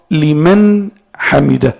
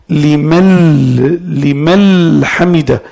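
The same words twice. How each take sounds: First: "لمن" ending in a clear n, slowly; correct prayer pronunciation. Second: "لمن" as a long-held "limal", its n turned into l; faulty prayer pronunciation. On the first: Teacher modelling the valid prayer phrase, "لمن" with clear final n. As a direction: say "لمن" as liman, then a separate "حمده". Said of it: "تقول". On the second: Teacher warning of an invalid prayer, "لمن" mispronounced limal with held l. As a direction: drag out the wrong l ending of "لمن" before "حمده". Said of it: "إذا قال هذا فسد الصلاة". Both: Shown as a demonstration.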